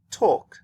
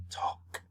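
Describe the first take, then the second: First: Said in the usual way. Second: Voiceless whisper of talk; whispered demo. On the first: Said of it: "If you whisper this sound". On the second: Shown as a demonstration. Teacher whispers talk to show no voice. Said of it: "If you whisper this sound, it's the same".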